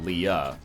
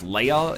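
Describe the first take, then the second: First: The name begins with a 'lee' sound. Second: The name begins with a 'lay' sound. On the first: The speaker calls it wrong. "not Leah" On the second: The speaker calls it right. "It's actually pronounced Leia"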